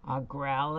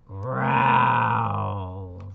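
First: Said in the usual way. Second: Loud growl from a polar bear. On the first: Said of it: "Growl," says the polar bear". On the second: Acted. Teacher reading to kids, growling loud like a polar bear. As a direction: growl it big and bearlike. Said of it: "says the polar bear".

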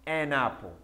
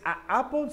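First: "an apple" joined through the n; corrected link. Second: "a apple" with a gap between vowels; wrong, broken form. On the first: Teacher gives the right form, "an apple" linked. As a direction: carry the n of "an" into "apple". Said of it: "sino an apple". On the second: Teacher rejects this form, "a apple" broken in two. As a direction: separate "a" from "apple" with a small catch. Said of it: "no es a apple". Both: Shown as a demonstration.

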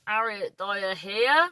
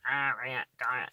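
First: Cornish accent. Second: "Harriet Dyer" lower and softer, Cornish style with H dropped; Cornish accent. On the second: Introducing her name as Cornwall says it, Cornish accent. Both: Shown as a demonstration. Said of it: "That's how they say it".

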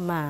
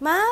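First: "Ma" long and low; tone contrast. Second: "Ma" short and high; tone contrast. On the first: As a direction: draw out Ma on a lower pitch. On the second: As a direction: say Ma high and brief. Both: Shown as a demonstration. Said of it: "careful with the tone".

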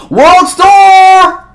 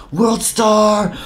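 First: "World Star!" yelled very high and loud; hype shout. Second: Hype call. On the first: Spectator hyping the fight, "World Star" shouted very high. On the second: Fight-video hype call. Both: Retold or imitated.

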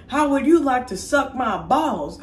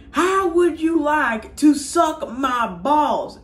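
First: High, slow cartoon schoolboy; cheeky kid voice. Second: "how would you like to suck my balls" high and very slow, each word spelled out; deliberate emphatic repeat. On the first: Schoolboy answers teacher's threat back, cheeky high voice. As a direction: talk back in a put-on kid voice. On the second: Retold or imitated. Pupil repeats insult to teacher, "suck my balls" slow and emphatic.

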